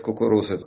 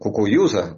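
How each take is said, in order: First: The middle consonant is a clear r sound. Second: The middle consonant is a y-like glide. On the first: The speaker passes as a local. "если ты мог сказать «кукуруза, иди»" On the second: The speaker is marked as an outsider. "если ты говорил, как еврей, «кукуюза», там или как-то так"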